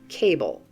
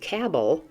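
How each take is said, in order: First: The B starts the second syllable: ca-ble. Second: The B closes the first syllable: cab-le. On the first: The speaker calls it right. "instead of" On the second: The speaker calls it wrong. "so that you don't end up pronouncing it"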